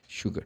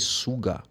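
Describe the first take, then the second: First: The word begins with an sh sound. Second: The word begins with a plain s sound. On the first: The speaker calls it right. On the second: The speaker calls it wrong.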